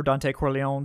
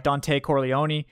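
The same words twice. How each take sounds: First: Corleone with a silent final e, cor-lee-OHN; alternative pronunciation. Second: Corleone with the final e sounded, cor-lee-OH-nee; Godfather-style pronunciation. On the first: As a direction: say Corleone in three syllables, ending in "own". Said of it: "depending on, you know, your, your pronunciation". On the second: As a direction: say Corleone in four syllables, ending in "nee". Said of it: "your pronunciation, Godfather style". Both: Shown as a demonstration.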